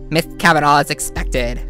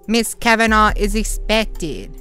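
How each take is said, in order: First: It is read in a different put-on character voice. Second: It is read in the plain narrating voice. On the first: The speaker calls it right. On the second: The speaker calls it wrong.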